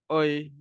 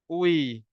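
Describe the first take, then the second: First: The lips are lax, giving 'oi'. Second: The lips are tightly rounded, giving 'ui'. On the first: The speaker calls it wrong. "jangan nak malas-malas, jangan nak oi" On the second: The speaker calls it right. "pastikan mulut tu termuncung betul-betul"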